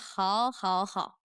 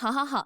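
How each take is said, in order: First: It sounds sarcastic and passive-aggressive. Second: It sounds genuinely happy and eager.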